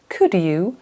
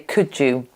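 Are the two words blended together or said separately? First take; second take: separately; blended. First: The two words are said separately and clearly. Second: The two words are blended into one sound. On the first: It sounds formal, like a news broadcast. "if I was a newsreader, I might say could you" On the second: It sounds casual and everyday. "because I'm a normal person, I say could you"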